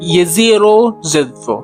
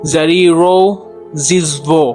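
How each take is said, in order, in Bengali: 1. প্রথম শব্দটি Y ধ্বনি দিয়ে শুরু হয়। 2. প্রথম শব্দটি J ধ্বনি দিয়ে শুরু হয়। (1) "এটা হবে হচ্ছে" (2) "যে অ্যাকচুয়ালি এটা জে না"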